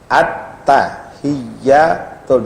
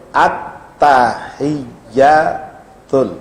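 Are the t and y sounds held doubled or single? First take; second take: doubled; doubled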